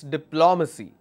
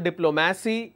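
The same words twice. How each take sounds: First: The stress is on the second syllable. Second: The stress is not on the second syllable. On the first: The speaker calls it right. "my stress will be on the third last" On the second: The speaker calls it wrong. "It's not diplomacy"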